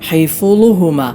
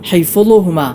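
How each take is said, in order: First: The f is released with a bouncing echo. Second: The f is released with a bouncing echo.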